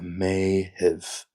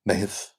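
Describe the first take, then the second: First: The word is said slowly and drawn out. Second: The word is said at normal speed.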